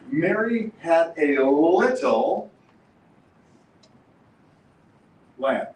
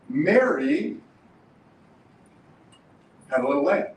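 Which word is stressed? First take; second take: little; Mary. First: The stress is on little. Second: The stress is on Mary.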